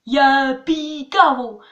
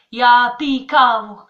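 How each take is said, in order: First: Ya pi kavo said slowly and loud, the wrong flat French way. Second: Ya pi kavo slowly and louder in a Czech accent. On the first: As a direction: plod through Ya pi kavo like a beginner. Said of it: "c'est n'importe quoi". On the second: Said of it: "faut le dire comme ça". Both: Shown as a demonstration.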